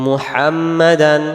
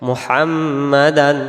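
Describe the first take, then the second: Both takes have the same delivery.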